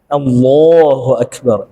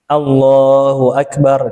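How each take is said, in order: First: The L in Allah is heavy and thick. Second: The L in Allah is light and thin. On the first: "Kalau tebal" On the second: "Ini kan biasa nih orang baca gini"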